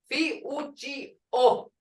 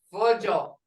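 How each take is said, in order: First: Fi-u-ji-o split into syllables; slow Fi-u-ji-o. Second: Fujo said normally, O clear; the full Fujo; whole word. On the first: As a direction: spell out Fi-u-ji-o. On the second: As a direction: Fujo in one go. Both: Shown as a demonstration. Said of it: "Hear that O?".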